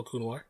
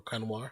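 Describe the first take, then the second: First: "Kunwar" said as KOON-war; one pronunciation. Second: "Kunwar" said as KUN-war; other pronunciation. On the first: Streamer greeting a new viewer, "Kunwar" as KOON-war. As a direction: give "Kunwar" a long oo in the first syllable. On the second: Streamer offering another version of the name, "Kunwar" as KUN-war. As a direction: give "Kunwar" a short uh in the first syllable. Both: Shown as a demonstration. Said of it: "however you wanna say it".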